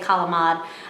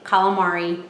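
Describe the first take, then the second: First: It has an Italian accent with the ending dropped. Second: It has a plain American accent with full ending. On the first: "I don't say calamad" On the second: "I say calamari"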